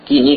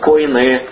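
First: The word has two syllables, ki-ni. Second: The word has three syllables, ko-i-ne. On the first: "разные произношения" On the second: "если правильно там по буквам греческим читать"

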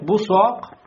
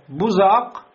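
First: The middle consonant is a plain s. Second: The middle consonant is a z. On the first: "Бессин" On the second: "беззай"

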